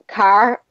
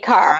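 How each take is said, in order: First: The R at the end is sounded. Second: The R is dropped, ending in ah.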